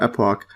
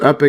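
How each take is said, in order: First: The word ends with an 'ock' sound. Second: The word ends with a short 'ick' sound. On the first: This follows the spelling. "I've been calling it uh, epoch just because it looks like that" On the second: This is the dictionary pronunciation. "the pronunciation says epic"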